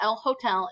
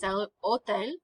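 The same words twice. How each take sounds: First: The h at the start of hotel is sounded. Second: The h at the start of hotel is silent. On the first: The speaker calls it wrong. "Don't pronounce your H, it's not el hotel" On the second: The speaker calls it right. "it's el hotel"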